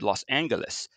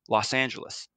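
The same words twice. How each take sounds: First: The G is hard, like in go. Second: The G is soft, like a J. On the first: This is the mayor's own pronunciation. "he was a hard G man. He said" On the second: This is the official pronunciation. "the winner was"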